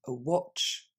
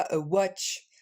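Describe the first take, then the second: First: Watch dit avec le o de of; bonne prononciation. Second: Watch dit avec un a ouvert; mauvaise prononciation. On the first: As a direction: remplacer le a par le o de of. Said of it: "mais on dit a watch". (watch bien prononcé) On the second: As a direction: imiter la faute du a dans watch. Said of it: "on dit pas a watch". (watch mal prononcé) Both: Shown as a demonstration.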